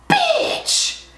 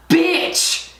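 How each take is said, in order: First: Squeaked, appalled exclamation, way up high; very high shocked squeal. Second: Higher-pitched, appalled exclamation; shocked outburst. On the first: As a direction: squeal it in outrage at the price. Repeats it, outraged at price. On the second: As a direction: exclaim it in disbelief at the price. Outrage at the palette's price. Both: Real, not acted.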